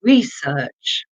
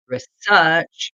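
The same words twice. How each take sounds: First: Research with stress on the second syllable, reSEARCH; research, weight on the second half; stress on SEarch. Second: Research stressed on the first syllable, REsearch; research, weight up front on RE; other stress on research. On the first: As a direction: say research as re-SEARCH, falling at the end. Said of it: "the last one here". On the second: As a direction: say research as REE-search. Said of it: "with a different stress". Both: Shown as a demonstration.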